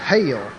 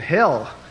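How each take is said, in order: First: The word is drawn out like hail, in a drawl. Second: The word is said with a short plain vowel. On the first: "You know, the hail" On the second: "they were saying hell"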